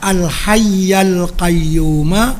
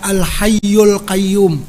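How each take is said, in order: First: Hayy ends in 'a', qayyum ends in 'a'. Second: Hayy ends in 'u', qayyum has no ending vowel. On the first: It matches the grammatical case of the preceding words. The speaker calls it right. "dibaca al-hayyal qayyuma wa atubu ilaih" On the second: It does not match the grammatical case of the preceding words. The speaker calls it wrong. "bukan dibaca al-hayyul qayyum"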